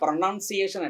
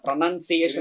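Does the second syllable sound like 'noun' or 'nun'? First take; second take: noun; nun. First: The second syllable sounds like 'noun'. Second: The second syllable sounds like 'nun'. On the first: The speaker calls it wrong. "നൗൺ അല്ല" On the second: The speaker calls it right. "എൻ യു എൻ ആണ്"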